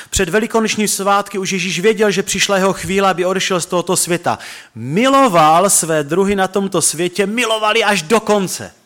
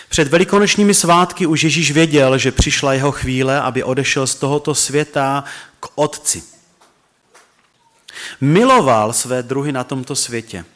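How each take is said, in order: First: Higher, emphatic preached quote of the verse; preaching the verse. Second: Measured, solemn Bible reading; scripture reading. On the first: Pastor pressing the verse on his listeners, fervent preaching. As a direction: lift the words up as the point of the sermon. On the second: Pastor reading the gospel aloud to the church, solemn reading. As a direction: read the verses steadily to the congregation. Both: Acted.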